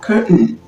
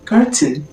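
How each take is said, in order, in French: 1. Il est prononcé avec un accent américain. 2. Il est prononcé avec un accent britannique. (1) "et l'anglais américain dira curtain" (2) "L'anglais britannique dira par exemple curtain"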